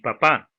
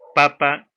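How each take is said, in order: First: The stress is on the last syllable. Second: The stress is on the first syllable. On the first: It means a father. "en la otra palabra está en la última sílaba" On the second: It means a potato. "el acento está en la penúltima sílaba"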